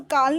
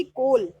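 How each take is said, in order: First: "काल" with an aa vowel; wrong vowel. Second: "कोल" with a rounded o; correct o vowel. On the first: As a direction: mispronounce call as "काल". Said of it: "काल नहीं बोलेंगे". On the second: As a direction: say call as "कोल". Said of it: "इसको हम बोलेंगे कोल". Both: Shown as a demonstration.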